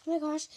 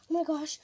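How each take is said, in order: Both takes have the same delivery.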